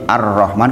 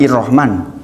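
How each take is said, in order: First: The word begins with an a vowel. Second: The word begins with an i vowel. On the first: The speaker calls it right. "kenapa hamzah wasol di ar-Rahman" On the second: The speaker calls it wrong. "bukan bukan ir-Rahman"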